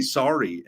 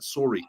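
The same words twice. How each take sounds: First: Said in the usual way. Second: "Sorry" with a rounded "or" vowel, like "sore-ee"; "Sorry" in a Canadian accent, first vowel as in "store". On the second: Shown as a demonstration. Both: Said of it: "Canadian, but".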